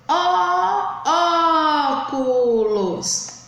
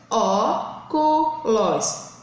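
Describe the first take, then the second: First: Long held Ó at the start of "óculos"; drawn-out first syllable on "óculos"; calling the word. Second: "Óculos" split slowly into ó, cu, los; three separate beats on "Óculos"; separated syllables. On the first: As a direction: call out ÓOOculos, stretching the stressed syllable. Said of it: "chame a palavra". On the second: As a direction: sound out "Óculos" with pauses for counting. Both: Shown as a demonstration.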